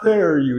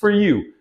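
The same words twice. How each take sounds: First: The vowel in 'for' is full and emphasized. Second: The vowel in 'for' is reduced and unstressed. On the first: The speaker calls it wrong. "it's not for you" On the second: The speaker calls it right. "It's for you"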